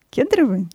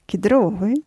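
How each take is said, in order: First: Ке́дровые, stress moved onto КЕД; stress on first syllable. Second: Кедро́вые, stress on ДРО, as a question; stress on second syllable. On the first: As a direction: say Кедровые as КЕД-ро-вые. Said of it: "Нет, орешки кедровые". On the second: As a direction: say Кедровые as кед-РО-вые. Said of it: "орешки кедровые всё-таки". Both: Shown as a demonstration.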